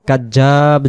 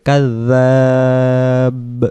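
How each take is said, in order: First: The middle consonant sounds like j. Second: The middle consonant is a soft dh sound. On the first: The speaker calls it wrong. "এটা জিম হতে পারে" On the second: The speaker calls it right. "নরম করে"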